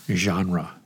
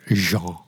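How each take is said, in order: First: The word is pronounced the usual English way. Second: The word is pronounced the French way.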